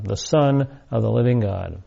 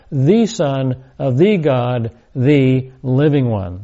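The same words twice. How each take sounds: First: Said in the usual way. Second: Slow, each "the" said as a separate "thee"; stress on THE. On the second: Shown as a demonstration. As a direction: set every THE apart with weight. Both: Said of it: "the definite article stresses individual identity".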